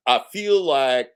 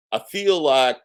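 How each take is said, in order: Both takes have the same delivery.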